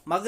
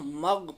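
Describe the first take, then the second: First: "मग" bounced on its last consonant; wrong qalqala. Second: "मग" with a smooth, unbounced final ghain; no qalqala. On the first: Teacher shows what to avoid, "मग" with bounced ending. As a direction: add an echo after the g of "मग". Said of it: "मग नहीं पढ़ना है". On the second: Teacher shows the right way, "मग" with no bounce. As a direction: stop "मग" on the consonant without echo. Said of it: "मग पढ़ना है". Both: Shown as a demonstration.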